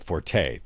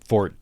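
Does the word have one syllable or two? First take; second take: two; one. First: The final vowel is sounded, giving two syllables. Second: The final vowel is silent, giving one syllable.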